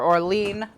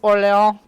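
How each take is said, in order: First: The name is said the American way. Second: The name is said the French way.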